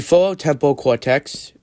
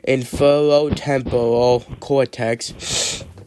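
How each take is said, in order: First: The term is said at a fast pace. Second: The term is said at a slow pace. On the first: "say fast" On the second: "slowly would be"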